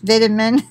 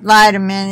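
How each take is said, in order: First: The word is said the British way. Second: The word is said the American way. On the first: "The people in the UK, ... say it's vitamin" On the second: "when you're raised saying it"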